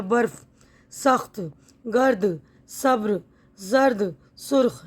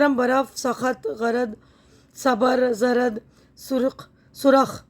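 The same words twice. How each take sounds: First: सब्र and जर्द with the clusters joined; बर्फ़, गर्द said tight, no extra vowel; correct pronunciation. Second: सबर and जरद with extra vowels, drawn out; slow, split each cluster: सबर, जरद, सुरख; wrong pronunciation. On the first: Teacher reads the word list the right way. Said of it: "र के ऊपर जज़्म है". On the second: Teacher reads the word list the wrong way. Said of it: "गलत तलफ़्फ़ुज़ है ना". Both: Shown as a demonstration.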